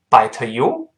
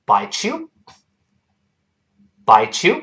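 First: "bite you" with a separate released t before "you"; unlinked, wrong reading. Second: "bite you" run together as "bai-chu"; linked ch sound. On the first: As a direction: say "bite" and "you" apart, popping the t. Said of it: "所以不要读bite you". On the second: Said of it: "碰到耶连读变成ch". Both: Shown as a demonstration.

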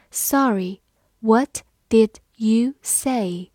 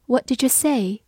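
First: Words pulled apart slowly; slow model reading of the question. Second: Said in the usual way. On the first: Shown as a demonstration. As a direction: say it slowly so students catch each word. Teacher models slow then fast. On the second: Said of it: "读快的时候，did和you之间有个连读".

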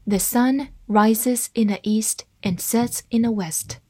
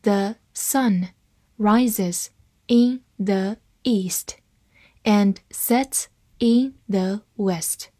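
First: Said in the usual way. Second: Word by word, slowly, with pauses; slow reading. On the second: Shown as a demonstration. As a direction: read it slowly for learners to follow. (慢慢地逐词朗读) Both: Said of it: "慢慢来读".

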